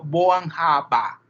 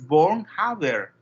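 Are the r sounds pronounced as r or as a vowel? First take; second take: vowel; r. First: The r sounds are pronounced like an a. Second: The r sounds are pronounced as clear r. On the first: The speaker calls it right. "esa R se pronuncia como una A" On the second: The speaker calls it wrong. "en realidad no es Bornhaber"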